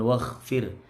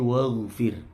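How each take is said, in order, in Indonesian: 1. Konsonan tengahnya adalah bunyi kasar, tak bersuara, dan bergetar. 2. Konsonan tengahnya adalah bunyi halus, jernih, dan bersuara. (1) "jangan waghfir. Bukan kha ini" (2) "Bersih ya"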